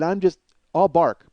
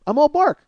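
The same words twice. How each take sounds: First: Said in the usual way. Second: Higher, louder emphatic repeat; sudden punchy yell; loud bark. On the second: Acted. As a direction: bark it out as bluster.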